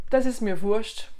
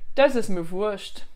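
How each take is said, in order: First: Wurst ends with a 'scht' sound. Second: The same.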